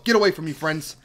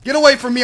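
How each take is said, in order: First: Said in the usual way. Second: Higher and louder, shooing them off. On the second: Real, not acted. Gamer shoos crowding villagers away, louder. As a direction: push the villagers away with your voice.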